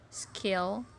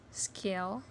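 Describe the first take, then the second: The two takes are said the same way.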